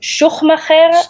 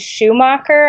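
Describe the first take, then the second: First: The name is said in an authentic German way. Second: The name is said in an anglicized way.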